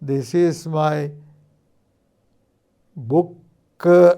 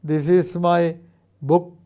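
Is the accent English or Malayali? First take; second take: Malayali; English. First: It is spoken with a Malayali accent. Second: It is spoken with a native English accent. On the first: This is how a Malayali tends to say it. "എന്ന് പറയാനാണ് മലയാളിയുടെ ഒരു പ്രവണത" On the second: This is how a native English speaker says it. "എന്ന് ഇംഗ്ലീഷുകാരൻ പറഞ്ഞാൽ"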